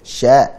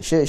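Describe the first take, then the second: First: The syllable is said with an open 'a' vowel. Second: The syllable is said with an 'i' vowel. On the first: The speaker calls it right. "Dibuka ya" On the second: The speaker calls it wrong. "Jangan syir"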